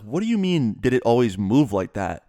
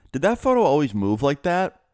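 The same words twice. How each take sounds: First: Mildly incredulous echo of her question; retold incredulous question. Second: Higher-pitched imitation of a puzzled mom; mildly mystified, lifted voice; mom's puzzled question. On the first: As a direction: imitate a baffled son challenging his mom. Son disbelieves mom's odd question. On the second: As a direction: retell her wondering question, rising at the end. Puzzled mom asks about photo.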